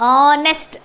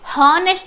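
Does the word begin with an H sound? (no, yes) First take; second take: no; yes. First: The word starts directly with a vowel sound. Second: The word starts with an audible H sound. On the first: The speaker calls it right. "ಆನೆಸ್ಟ್ ಅಂತ ಉಚ್ಚಾರ ಮಾಡ್ತೀವಿ" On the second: The speaker calls it wrong. "ಹಾನೆಸ್ಟ್ ಅಂತ ಹೇಳಲ್ಲ ನಾವು"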